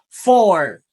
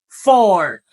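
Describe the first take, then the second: Both takes have the same delivery.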